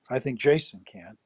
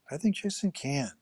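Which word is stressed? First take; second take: jason; can. First: The stress is on the word 'Jason'. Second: The stress is on the word 'can'.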